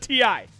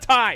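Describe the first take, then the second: First: It is said as two separate letter names. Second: It is said as one word, rhyming with 'eye'. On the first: The speaker calls it right. "It is a T I" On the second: The speaker calls it wrong. "It is not a tie"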